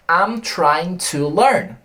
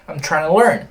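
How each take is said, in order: First: Each word is said fully and separately. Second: It is said fast with the words run together.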